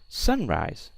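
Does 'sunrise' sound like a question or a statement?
question. It is said with questioning, confused intonation. "I said, or she said"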